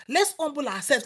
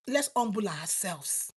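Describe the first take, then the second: First: Said in the usual way. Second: Soft, slow. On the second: Shown as a demonstration.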